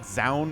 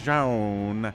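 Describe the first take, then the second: First: The name is said in an English way. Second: The name is said in a Korean way. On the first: "Zaun is the English pronunciation" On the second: "Jaun is the Korean pronunciation"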